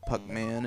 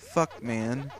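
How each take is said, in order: First: The name begins with a plain p sound. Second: The name begins with an f-like sound. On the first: "It was originally called Puckman in Japan" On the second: "or as they pronounced it"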